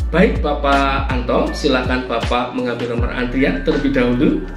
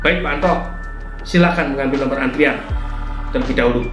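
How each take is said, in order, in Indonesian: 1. Nadanya terdengar ramah dan sopan. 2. Nadanya terdengar ketus dan tidak ramah. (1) "itu masih bisa diterima" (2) "Namun nadanya seperti ini"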